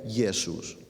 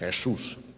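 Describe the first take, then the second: First: It starts with a soft y sound. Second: It starts with a throaty, rasping consonant. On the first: This is the older form of the name. "antiguamente se diría, o en latín se diría Jesús" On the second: This is the later form after a new sound entered the language. "el sonido de se introdujo en el castellano, entonces se empezó a decir Jesús"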